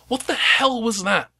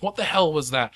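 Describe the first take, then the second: First: High, slow, startled captain; captain's demand. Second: Said in the usual way. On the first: Acted. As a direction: voice a rattled captain. Captain voiced in GM scene.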